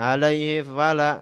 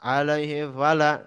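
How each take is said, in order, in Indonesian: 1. Bunyi m di akhir hilang atau tidak jelas. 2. Bunyi m di akhir hilang atau tidak jelas.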